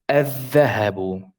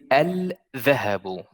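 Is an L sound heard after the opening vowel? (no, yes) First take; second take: no; yes. First: The L is dropped and the next consonant doubled. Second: The L sound is pronounced before the next consonant. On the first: The speaker calls it right. "we neglect the L, uh, the lam here" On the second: The speaker calls it wrong. "you do not say الذهب. الذهب is really strong to is really uh, like very very hard to say"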